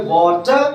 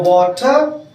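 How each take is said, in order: First: British-style वाटर, final R dropped; British accent. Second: Teacher's American-style वाटर; American accent. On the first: Teacher contrasts accents for students, British वाटर with silent R. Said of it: "British". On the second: Teacher contrasts accents for students, वाटर in American accent. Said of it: "ये बन गया American". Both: Shown as a demonstration.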